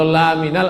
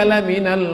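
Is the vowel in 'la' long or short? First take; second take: long; short. First: The vowel in 'la' is drawn out long. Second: The vowel in 'la' is kept short. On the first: He is not one of the messengers. The speaker calls it wrong. "Kalau la minal artinya bukan rasul" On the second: He is indeed one of the messengers. The speaker calls it right. "Lamnya pendek"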